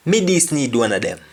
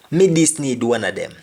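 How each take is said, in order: First: Quick patois, Me stressed; fast patois Me this need; Jamaican patois. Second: Patois, Me stressed; Jamaican patois. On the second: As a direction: repeat Me this need in patois. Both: Shown as a demonstration. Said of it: "I just need one of them".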